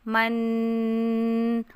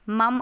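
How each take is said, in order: First: The syllable ends with an n sound. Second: The syllable ends with an m sound. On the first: The speaker calls it right. "बल्कि आवाज़ नून की आएगी" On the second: The speaker calls it wrong. "ऐसा नहीं कि मीम पर दो ज़बर हों तो आवाज़ मीम मम आए"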